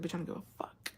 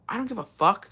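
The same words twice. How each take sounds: First: Breathy whispered retort, barely voiced; retold whisper. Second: Said in the usual way. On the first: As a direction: whisper it like you really mean it. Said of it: "I said".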